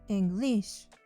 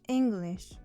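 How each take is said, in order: First: The stress is on the second syllable. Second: The stress is on the first syllable. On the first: The speaker calls it wrong. "not English" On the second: The speaker calls it right. "the first syllable is stressed"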